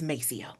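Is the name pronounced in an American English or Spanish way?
American English. The name has an American English pronunciation. This is how the community has adapted the name. "us pronouncing it the way we pronounce it"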